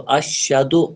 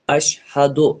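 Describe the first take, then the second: First: The middle h sound is swallowed and dropped. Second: The middle h sound is clearly pronounced. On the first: The speaker calls it wrong. "ये गलत तरीका है" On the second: The speaker calls it right. "सही तरीका क्या है"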